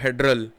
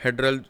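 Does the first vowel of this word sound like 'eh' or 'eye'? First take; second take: eh; eh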